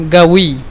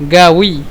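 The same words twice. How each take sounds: First: The word begins with a hard consonant. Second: The same.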